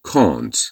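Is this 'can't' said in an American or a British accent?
British. It is said in a British accent. "در بریتیش هم که میشه can't"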